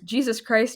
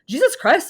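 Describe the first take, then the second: First: It is said in the speaker's ordinary accent. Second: It is said in an exaggerated Irish accent. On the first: "But I didn't say it like that" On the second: "I said it, oh, I don't think it's gonna be really bad. It was like"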